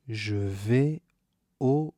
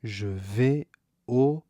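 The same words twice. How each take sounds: The two takes are said the same way.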